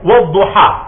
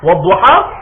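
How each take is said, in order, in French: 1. La voyelle finale est un A ouvert et net. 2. La voyelle finale est un A ouvert et net.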